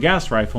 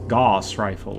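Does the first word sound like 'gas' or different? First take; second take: like gas; different. First: The first word sounds exactly like 'gas'. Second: The first word does not sound like 'gas'. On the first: The speaker calls it wrong. "I called it gas rifle" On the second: The speaker calls it right. "the gas rifle must be like Gauss rifle"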